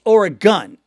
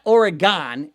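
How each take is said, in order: First: Oregon said OR-uh-gun, short last syllable; Oregon clipped to OR-uh-gun, stress on the first syllable; right Oregon. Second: Oregon said the wrong way, ending like gone; Oregon with a drawn-out gone at the end. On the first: Fans teaching the host the right Oregon. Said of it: "it's not Oregon, it's Oregon". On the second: Fans correcting the host's wrong Oregon. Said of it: "Teresa and Jen both said, "Please, it's not Oregon". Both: Retold or imitated.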